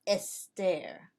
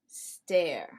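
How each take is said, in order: First: An extra e vowel comes before the s. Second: The word starts directly with the s sound. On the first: The speaker calls it wrong. "not estare" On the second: The speaker calls it right.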